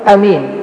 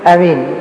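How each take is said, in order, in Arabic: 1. الحركة الأولى تبقى قصيرة. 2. الحركة الأولى تبقى قصيرة.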